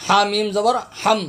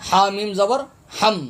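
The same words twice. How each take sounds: The two takes are said the same way.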